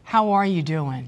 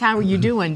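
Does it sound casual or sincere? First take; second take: sincere; casual. First: It sounds sincere and caring. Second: It sounds casual and offhand.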